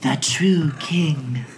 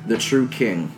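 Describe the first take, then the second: First: It is said in a put-on ghost voice. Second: It is said in a plain narrating voice.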